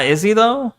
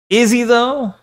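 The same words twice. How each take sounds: First: Said in the usual way. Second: High-pitched, sceptical question; sceptical repeat. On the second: Real, not acted. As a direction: raise the whole question in doubt. Repeats the doubt more pointedly.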